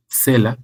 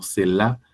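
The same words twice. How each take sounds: First: "Selah" stressed on the E, SÉ-la; stress on first syllable. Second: "Selah" stressed on the last syllable, se-LÁ; stress on final syllable. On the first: ("Selah" con S y acento en la E) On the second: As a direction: put the accent of "Selah" on the final A. ("Selah" con acento en la A final) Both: Shown as a demonstration. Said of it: "con S y acento en la E".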